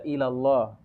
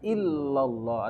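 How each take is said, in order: First: The L sound is short, not held. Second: The L sound is doubled and held longer. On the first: It changes the meaning to 'no god to Allah'. The speaker calls it wrong. "Dia baca ilallah. Tidak ada Tuhan kepada Allah" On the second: It means 'no god but Allah'. The speaker calls it right. "Seharusnya kan la ilaha illallah. Ada tasydid di situ"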